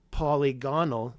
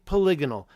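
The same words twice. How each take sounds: First: "polygonal" split into polly and GON-al; wrong pronunciation. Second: "polygonal" louder, stressed on LIG; preferred pronunciation. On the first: Streamer telling viewers what not to say, "polygonal" as polly-GON-al. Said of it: "so don't say". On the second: Streamer telling viewers what to say, "polygonal" as puh-LIG-on-al. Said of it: "say polygonal". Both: Shown as a demonstration.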